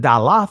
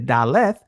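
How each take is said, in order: First: It uses the ancient pronunciation of the letter name. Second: It uses the modern pronunciation of the letter name.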